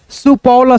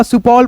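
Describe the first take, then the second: First: सुपौल with a vowel after ल; सुपौल read letter by letter, final ल voiced; sounded out by parts. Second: Said in the usual way. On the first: Shown as a demonstration. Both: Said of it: "सुपौल पढ़ेंगे".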